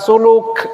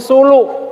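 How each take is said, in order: First: The final k sound is clearly pronounced. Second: The final k sound is dropped or glottal. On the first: "bukan suluk" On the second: "Emang orang Jawa nggak bisa ngomong k"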